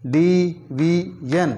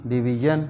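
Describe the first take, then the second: First: division stretched slowly, syllable by syllable; slow syllable drill. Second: Said in the usual way. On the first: Shown as a demonstration. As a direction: draw division out in slow parts. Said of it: "syllable drilling". (Division को धीरे खींचकर बोलना) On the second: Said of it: "normal reading after drill".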